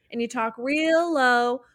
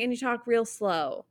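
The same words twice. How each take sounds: First: "low" said without an s, after a drawn-out "real"; word heard as low. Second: "slow" said with a clear s at the start; word heard as slow. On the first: Puzzling over a lyric with a friend, "low" without the s. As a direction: stretch "real" and say "low" clearly, no s. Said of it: "or did she say low?". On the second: Showing a friend the lyric as heard, "slow" with the s. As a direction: quote the lyric with an s opening "slow". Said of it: "it feels like she's saying". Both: Shown as a demonstration.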